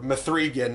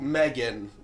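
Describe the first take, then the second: First: The name is said with three syllables. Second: The name is said with two syllables.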